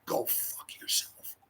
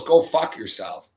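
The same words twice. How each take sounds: First: Slow, voiceless mouthing of an insult; mouthed whisper. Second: Said in the usual way. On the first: Retold or imitated. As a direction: lip it with barely any breath. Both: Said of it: "she lips it though".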